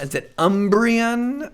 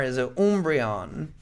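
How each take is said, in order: First: "Umbreon" starting with "um" as in umbrella; English pronunciation. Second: "Umbreon" starting with a long "oom"; German-style pronunciation. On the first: Asking viewers about the Pokemon name, "Umbreon" as UM-bree-un. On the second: Asking viewers about the Pokemon name, "Umbreon" as OOM-bree-on. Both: Shown as a demonstration. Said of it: "speaking everything with a Deutsch German accent".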